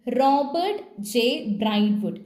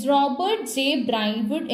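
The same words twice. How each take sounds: First: Name read out slowly, syllable by syllable; slow careful reading. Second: Said in the usual way. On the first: Shown as a demonstration. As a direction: sound out the name "Robert ജെ ബ്രൈറ്റ്വുഡ്" slowly. (പേര് പതുക്കെ വായിക്കുന്നു) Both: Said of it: "വായിച്ചേ".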